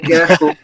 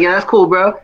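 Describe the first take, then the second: First: It sounds dismissive, meaning the opposite. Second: It sounds sincere and genuinely approving.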